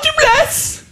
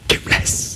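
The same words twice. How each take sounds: First: It is said aloud in a normal voice. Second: It is whispered as a repeated echo.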